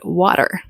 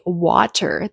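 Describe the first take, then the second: First: The middle T is a quick flap sound. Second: The middle T is a clear, released T. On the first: "they said water" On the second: "they didn't say water"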